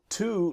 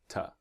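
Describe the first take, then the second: First: The word is said with a full vowel. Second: The word is said with a soft reduced vowel. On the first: "is the strong pronunciation" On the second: "The weak pronunciation is ta"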